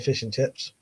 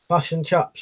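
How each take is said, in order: First: The vowels are said in the speaker's usual accent. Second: The vowels are shifted, imitating a foreign accent.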